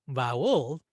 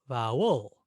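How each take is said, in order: First: The stress is on the second syllable. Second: The same.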